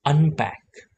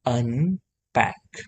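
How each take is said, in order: First: "અનપેક" joined up, higher start then falling; blended word. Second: "અનપેક" very slow, "અન" and "પેક" apart; sounded out slowly. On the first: Teacher models for learners to repeat, joined-up "അനപേക". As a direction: say "અનપેક" as one firm word. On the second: Teacher builds the word for learners, slow split "અનપેક". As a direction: stretch "અનપેક" in two parts. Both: Shown as a demonstration. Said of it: "ન નો ઉચ્ચાર ટૂંકો છે".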